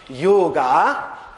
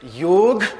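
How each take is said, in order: First: The word ends in a long a sound. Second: The word ends on the g, no vowel. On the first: "will not pronounce it as yoga" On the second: "nor will they pronounce it as yog, unless they are speaking Hindi"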